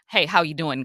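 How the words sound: It is a quick, casual passing greeting.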